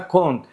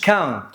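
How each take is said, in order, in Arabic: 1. الصوت يشبه اللي في 'cone'. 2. الصوت يشبه اللي في 'cow'. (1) "لا اسمها كونت" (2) "ما تقوليش كاونت"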